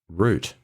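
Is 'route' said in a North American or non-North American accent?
non-North American. It is said in a non-North American accent.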